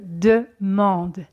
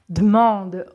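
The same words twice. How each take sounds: First: The first e of demande is fully pronounced. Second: The first e of demande is dropped.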